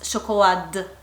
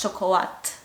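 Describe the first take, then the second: First: The word ends in a voiced D sound. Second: The word ends in a voiceless T sound. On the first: The speaker calls it wrong. "we cannot pronounce chocolade" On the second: The speaker calls it right. "it's pronounced T because we have only voiceless sounds"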